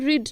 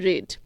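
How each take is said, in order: First: The vowel is long, like in 'reed'. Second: The vowel is short, like in 'red'. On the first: It is the present tense form. The speaker calls it wrong. "এটা কিন্তু রিড নয়" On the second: It is the past participle form. The speaker calls it right. "এটার উচ্চারণ হয়ে যাবে রেড"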